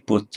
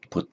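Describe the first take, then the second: First: Pote as PO-te, first syllable stressed; two syllables in pote, the first one strong. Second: Pote as po-TE, last syllable stressed; two syllables in pote, the last one strong; stress on final syllable. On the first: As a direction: lean on PO in pote. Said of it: "the difference is in stress". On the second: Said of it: "with the stress and fine means never". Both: Shown as a demonstration.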